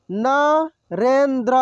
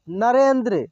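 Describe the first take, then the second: First: Narendra drawn out slowly, syllable by syllable; slow sounding out. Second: Said in the usual way. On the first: Shown as a demonstration. Teacher slowly sounds out Narendra for students. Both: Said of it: "एक एक मात्रा को अलग अलग करके".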